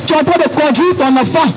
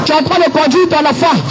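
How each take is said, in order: Both takes have the same delivery.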